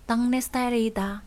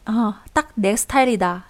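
First: The first syllable ends in an ng sound. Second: The first syllable ends in a k sound.

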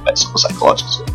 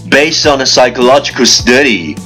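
First: It is spoken very fast in one breath. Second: It is spoken at a moderate, steady pace. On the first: "一口气最快语速" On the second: "跟上我的节奏"

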